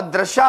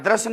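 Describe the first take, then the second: First: दृशा said clearly with a short final आ, as the right form; teacher spelling out दृशा as correct; correct pronunciation. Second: दृश्य set against दृशा as the wrong form, ending on the य cluster; teacher naming दृश्य as the mistaken form; wrong pronunciation. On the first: Teacher showing students the right form, stating दृशा clearly. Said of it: "और दृशा होता है". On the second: Teacher warning students off the wrong form, saying दृश्य flatly. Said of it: "दृश्य नहीं होता". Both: Shown as a demonstration.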